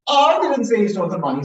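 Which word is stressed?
I. The word "I" carries the main stress. Someone else said it. "Someone else said it, not me"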